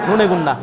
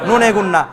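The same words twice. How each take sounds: The two takes are said the same way.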